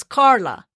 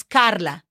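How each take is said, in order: First: English Carla, breathy K and untapped r; English pronunciation. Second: Carla said the Spanish way, tapped R; Spanish Carla with open a and tapped r; Spanish pronunciation. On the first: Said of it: "somebody that is an English speaker". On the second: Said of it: "somebody that is a Spanish speaker". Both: Shown as a demonstration.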